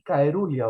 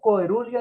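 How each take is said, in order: First: The word begins with a hard 'kai' sound. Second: The word begins with a hard 'ko-e' sound. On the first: "ni caerulia" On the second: "no coerulia"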